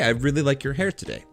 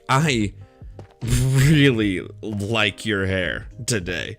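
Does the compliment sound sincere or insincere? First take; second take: sincere; insincere. First: The compliment sounds warm and sincere. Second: The compliment sounds insincere, not genuine. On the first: The compliment is meant genuinely. "Which would be genuine based off of the tone of my voice" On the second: The compliment implies something other than its words. "which has with it a different meaning"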